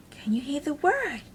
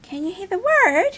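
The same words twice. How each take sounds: First: Said in the usual way. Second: Can you hear the word asked higher and louder with a rise; excited repeat. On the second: Shown as a demonstration. Teacher eagerly repeats question to children, higher and louder. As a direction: ask it again with big eager energy.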